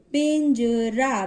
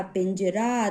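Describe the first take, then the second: First: पिंजरा slow, split as pin, ja, raa; sounding out. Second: Said in the usual way. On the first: Shown as a demonstration. Teacher demonstrating the nasal sign, slow split syllables. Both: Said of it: "थोड़ा सा pause देकर".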